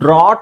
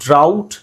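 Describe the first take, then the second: First: The vowel is an 'aw' sound, as in ought. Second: The vowel is an 'ow' sound, as in out. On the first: The speaker calls it wrong. "ಅದನ್ನು ನಾವು ಡ್ರಾಟ್ ಅಂತ ಹೇಳಲ್ಲ" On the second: The speaker calls it right. "ಡ್ರೌಟ್ ಅಂತ ಹೇಳ್ತೀವಿ"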